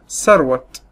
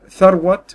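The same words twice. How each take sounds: First: The name begins with an 's' sound. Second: The name begins with a 'th' sound. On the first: "كتير مننا بيقول عليها ثروت" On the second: "بدل ما نقول ثروت"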